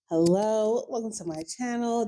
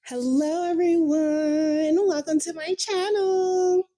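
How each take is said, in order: First: It is said in her real voice. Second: It is said in a put-on voice.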